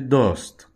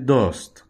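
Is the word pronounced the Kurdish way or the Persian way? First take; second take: Kurdish; Kurdish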